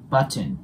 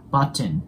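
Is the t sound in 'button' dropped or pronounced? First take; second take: pronounced; pronounced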